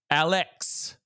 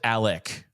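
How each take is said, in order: First: The name ends with a 'ks' sound. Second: The name ends with a 'k' sound. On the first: This matches how the name is spelled. The speaker calls it right. "it's spelled with an X" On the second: This is how people end up saying the name. The speaker calls it wrong. "Why is it Alec?"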